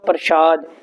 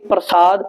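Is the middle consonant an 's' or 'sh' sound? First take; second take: sh; s. First: The middle consonant is a 'sh' sound. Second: The middle consonant is a plain 's' sound. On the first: It means sacred food offering. The speaker calls it wrong. "ਜੇ ਬਿੰਦੀ ਲਾ ਦੇਵਾਂਗੇ ਇਹਦਾ ਅਰਥ ਬਣ ਜਾਵੇਗਾ ਪ੍ਰਸ਼ਾਦ" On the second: It means grace or mercy. The speaker calls it right. "ਜੇ ਬਿੰਦੀ ਰਹਿਤ ਪੜਾਂਗੇ ਪ੍ਰਸਾਦ"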